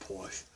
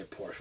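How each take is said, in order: First: Porsche with a dropped r, Boston accent. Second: Porsche with a sounded r; Porsche in standard American; non-Boston pronunciation. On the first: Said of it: "we'll say Porsche instead". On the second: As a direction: say Porsche as "Porsh". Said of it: "We don't say Porsche". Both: Shown as a demonstration.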